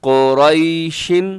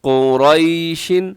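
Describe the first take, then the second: Both takes have the same delivery.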